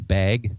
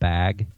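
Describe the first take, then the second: First: The word has a Pacific Northwest pronunciation. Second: The word has a non-Northwest pronunciation. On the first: This is how people from the region say it. "I'm a Pacific Northwesterner. So we say bag" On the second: This is how people from elsewhere say it. "not bag"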